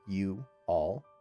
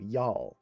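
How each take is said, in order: First: The two words are said separately. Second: The two words are joined into one. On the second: "They connect together"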